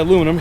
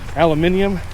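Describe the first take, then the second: First: It is said with four syllables, ending 'num'. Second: It is said with five syllables, ending 'ee-um'. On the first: This is how it is said in the United States. "we say aluminum here in the United States" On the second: This is how it is said across the pond. "They say that over across the pond"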